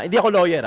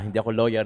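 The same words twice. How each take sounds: First: Hindi AKO lawyer, ako punched high and loud; stress on ako. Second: Said in the usual way. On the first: Shown as a demonstration. Commentator stressing she is not the lawyer, ako emphasized. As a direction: lean hard on ako, higher and louder.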